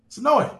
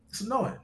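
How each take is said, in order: First: Louder, higher, fed-up "It's annoying."; exasperated. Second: Softer, resigned "It's annoying." under the breath; muttered. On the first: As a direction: spit out "It's annoying." in real irritation. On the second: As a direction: let "It's annoying." sink, quieter and tired. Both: Real, not acted. Streamer venting about repeated defense.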